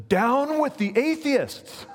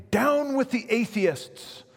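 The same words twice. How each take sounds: First: High, loud, slow and defiant; defiant retort. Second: High, slow, commanding proconsul; the proconsul dictating the words to recant; the proconsul says it as an order to deny his faith; proconsul's demand. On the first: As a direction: turn the words back on the crowd. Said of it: "he gestured towards them, and he says". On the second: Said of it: "he began to persuade him, saying". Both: Retold or imitated.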